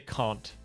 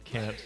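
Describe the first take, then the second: First: It is said in a British accent. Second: It is said in an American accent. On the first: "British English, actually. Because you say can't" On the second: "instead of can't"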